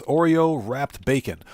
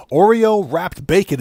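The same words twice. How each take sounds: First: Said in the usual way. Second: Slow, a bit louder, in disbelief; stunned echo of a weird food; incredulous. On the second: Real, not acted. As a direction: repeat it like you can't believe it. Stunned by chat's food idea.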